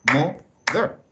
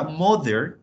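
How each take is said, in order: First: "Mother" split into two separate beats; syllable by syllable. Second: Said in the usual way. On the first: Shown as a demonstration. Teacher showing that mother has two syllables, "Mother" said in separate beats. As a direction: break "Mother" in two, a beat for each syllable. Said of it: "las sílabas son los golpes que nosotros damos". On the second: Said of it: "las sílabas son los golpes".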